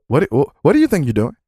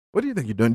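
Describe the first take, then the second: First: Quick, pressing mock TV host; imitating Chris Hansen. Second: Imitating Chris Hansen. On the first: Host confronting a caught predator, quick mock grilling. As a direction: fire the question fast like a sting interviewer. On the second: Host repeats question to caught man, quieter and knowing. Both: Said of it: "Chris Hansen fucking coming in".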